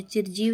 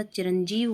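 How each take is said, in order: First: चिरजीव without the n, chir-jeev; wrong pronunciation. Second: Said in the usual way. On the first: Shown as a demonstration. Teacher rejecting a word, चिरजीव said without its n. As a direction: drop the nasal from चिरजीव. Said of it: "नहीं होता". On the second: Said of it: "होता है".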